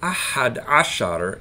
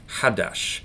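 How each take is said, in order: First: It is said in full as two words. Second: It is shortened into one word without r. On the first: This is the formal form. "is what people are supposed to say" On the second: This is the everyday casual form. "but everyone says Hadash"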